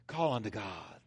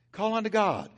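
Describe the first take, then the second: First: Much lower and softer, Call unto God; softly urging Call unto God; hushed call. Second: Said in the usual way. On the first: Shown as a demonstration. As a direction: breathe out Call unto God almost to yourself.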